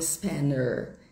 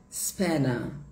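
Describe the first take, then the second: First: The ending is an American er with r. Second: The ending is a British vowel without r. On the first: The speaker calls it wrong. "e não spanner" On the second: The speaker calls it right. "o inglês britânico, ele vai falar spanner"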